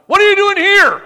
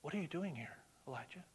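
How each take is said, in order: First: Huge, high, roaring shout of the question; booming voice of God. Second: Much softer, hushed question; soft quiet God. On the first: God roaring down at Elijah in the cave, booming shout. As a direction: thunder it down from heaven. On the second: God gently asking Elijah in the cave, hushed. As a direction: ask it gently, barely above a breath. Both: Retold or imitated.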